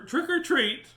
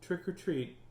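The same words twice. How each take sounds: First: It is said a little louder. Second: It is said very softly.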